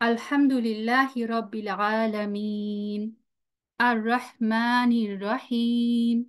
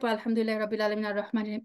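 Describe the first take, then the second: First: It is recited slowly with a pause between verses. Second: It is recited quickly without pausing between verses. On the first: The speaker calls it right. "ধীরে ধীরে এবং প্রত্যেকটা আয়াতের পর একটু সময় দিতেন" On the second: The speaker calls it wrong. "গড় গড় করে"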